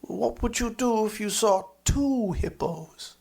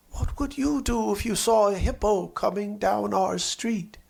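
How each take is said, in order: First: Lightly voiced eager boy, slightly higher, leaning on two; a hint of a gleeful child; child's question. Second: Lightly voiced eager boy, slightly higher; a hint of an excited child; child's question. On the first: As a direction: top the last question like a boy upping the stakes. Child asks the question again. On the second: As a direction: ask it like a curious small boy. Child asks friends a question.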